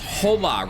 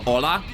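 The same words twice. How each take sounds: First: The h at the start is pronounced. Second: The h at the start is silent. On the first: The speaker calls it wrong. "Reese says hola" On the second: The speaker calls it right. "Instead of hola"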